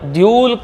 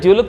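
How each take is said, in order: First: The first vowel is long. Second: The first vowel is short. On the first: The speaker calls it right. "ಅನ್ಬೇಕು" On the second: The speaker calls it wrong. "ನಾವು ಹ್ರಸ್ವ ಹೇಳಬಾರ್ದು"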